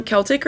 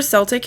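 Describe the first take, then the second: First: Celtic said with a K sound, KEL-tik; hard-C pronunciation. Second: Celtic said with an S sound, SEL-tik; soft-C pronunciation. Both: Shown as a demonstration. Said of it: "however you wanna say it".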